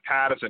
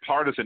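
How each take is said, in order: First: It is said in a Boston accent. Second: It is said in a general American accent. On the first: The speaker calls it wrong. "not partisan, because we're not from Boston" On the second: The speaker calls it right. "You want to say partisan"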